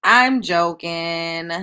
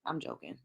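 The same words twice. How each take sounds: First: Very slow, stretched "I'm joking", louder; drawn-out playful. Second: Soft, quick "I'm joking" under the breath; quick quiet aside. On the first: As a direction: drag out "I'm joking" teasingly. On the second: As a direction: toss off "I'm joking" softly and fast. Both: Real, not acted.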